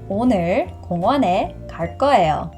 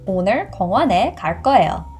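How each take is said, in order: First: The sentence is spoken at a slow pace. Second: The sentence is spoken at a fast pace. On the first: "the second time I will say it much slower" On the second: "The first time I will say fast"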